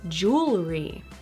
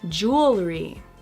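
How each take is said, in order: First: The word is said with one syllable cut. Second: The same.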